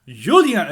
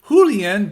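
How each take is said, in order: First: The name is said with a French pronunciation. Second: The name is said with an English pronunciation. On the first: The speaker calls it right. "it's a French pronunciation" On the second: The speaker calls it wrong. "I said it was Julien"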